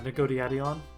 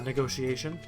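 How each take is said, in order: First: The word is said with a d sound instead. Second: The word is said with its usual t sound. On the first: "I said uh, negodiation. Funny to me" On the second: "the funniest one"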